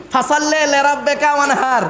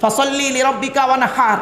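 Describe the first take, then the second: First: "লিরাব্বিকা" as lerabbeka, "ওয়ানহার" with plain h; common mispronunciation. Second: "ওয়ানহার" with a throaty Arabic h; correct Quranic pronunciation. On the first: Preacher mimicking how we say the verse, common mispronunciation. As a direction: turn i to e in "লিরাব্বিকা", light Bengali h in "ওয়ানহার". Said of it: "আর আমরা উচ্চারণ করি কি". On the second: Preacher modelling the verse before its meaning, correct Quranic pronunciation. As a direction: recite with clear i in "লিরাব্বিকা", throaty h in "ওয়ানহার". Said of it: "গলার ভেতর থেকে হে এটা উচ্চারণ করবে".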